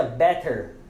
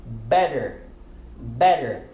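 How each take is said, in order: First: "better" with a clearly sounded hard T; hard T, not used. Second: "better" with the middle T turned into a quick D; American flapped T. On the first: Teacher showing learners what to avoid, "better" with a hard T. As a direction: pronounce the T in "better" as a true T. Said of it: "a gente não pronuncia better". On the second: Teacher repeats the model for learners, "better" with a D sound. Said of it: "Nós pronunciamos o D ali". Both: Shown as a demonstration.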